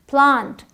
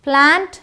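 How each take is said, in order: First: प्लांट with long "aa", as "plaant"; British pronunciation. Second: प्लांट with front "ae", as "plaent"; American pronunciation. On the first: Teacher contrasts British with American, प्लांट as British "plaant". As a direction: say प्लांट with the vowel of father. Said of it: "British English में आ का sound". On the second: Teacher contrasts American with British, प्लांट as American "plaent". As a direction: say प्लांट with the vowel of cat. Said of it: "American English में ए का sound". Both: Shown as a demonstration.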